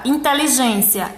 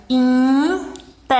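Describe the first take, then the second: First: Said in the usual way. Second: Teacher breaking "Inteligência" into isolated syllables. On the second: Shown as a demonstration. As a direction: sound out "Inteligência" in six separate syllables. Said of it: "eu tenho seis sílabas".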